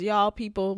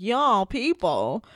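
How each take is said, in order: First: Said in the usual way. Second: Drawn-out, mock-affronted repeat; affronted echo. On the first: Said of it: "Sam says". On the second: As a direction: echo it slowly as if taking offense.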